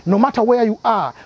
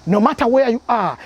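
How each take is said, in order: Both takes have the same delivery.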